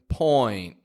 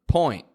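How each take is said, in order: First: The word is drawn out slowly. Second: The word is said at normal speed. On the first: The speaker calls it wrong. "I'm not pronouncing it so slow like point" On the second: The speaker calls it right. "when I say it naturally, point"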